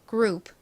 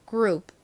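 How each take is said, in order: No difference in how they are said.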